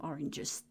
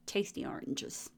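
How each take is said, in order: First: Said in the usual way. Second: Breathy whisper on Tasty oranges. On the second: Shown as a demonstration. Repeats the word in a whisper.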